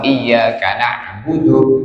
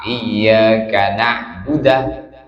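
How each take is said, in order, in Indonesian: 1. Huruf d diikuti vokal u. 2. Huruf d diikuti vokal a. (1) "yang seharusnya dhammah" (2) "dibaca fathah"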